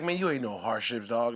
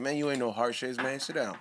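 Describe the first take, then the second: First: Low Tyson impression. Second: Lower, softer Tyson impression; quiet low mock Tyson scolding. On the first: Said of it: "he was like". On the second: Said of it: "he's like".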